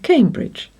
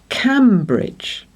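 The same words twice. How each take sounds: First: The first syllable sounds like 'came'. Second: The first syllable sounds like 'cam'. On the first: This is how it is actually said today. "over time it has changed to Cambridge" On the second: This is how the spelling suggests it is said. "this one should say Cambridge, especially as the bridge is over the River Cam"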